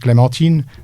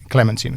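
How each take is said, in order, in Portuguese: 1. O nome é pronunciado com sons franceses. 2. O nome é pronunciado com sons ingleses. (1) "Em francês" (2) "em inglês, eles diziam"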